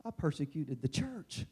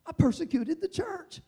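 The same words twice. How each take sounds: First: Said in the usual way. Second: I persecuted the church lifted high; a raised, urgent second take; higher repeat. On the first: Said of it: "repeated, second raised". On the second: Shown as a demonstration. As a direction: repeat it up, pleading. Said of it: "repeated with a lift".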